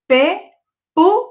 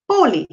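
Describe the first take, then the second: First: "pe-pu-lé" slow and high, each syllable alone; split into syllables. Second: Said in the usual way. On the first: Shown as a demonstration. Teacher counting syllables for pupils, "pe-pu-lé" in separate beats. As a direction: spell out the sound "pe-pu-lé" in separated, raised beats. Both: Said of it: "dividir essas palavras em sílabas".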